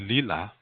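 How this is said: The word is said with L sounds. This is the Lakota dialect form. "when we say lila"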